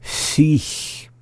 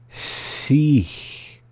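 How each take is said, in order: First: Said in the usual way. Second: "Sich" drawn out subtly, with a long hissed end; slowly. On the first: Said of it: "up to speed". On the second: Shown as a demonstration. Teacher giving a hard example, "Sich" slowed down subtly. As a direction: stretch "Sich" a little. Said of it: "hard one to slow down".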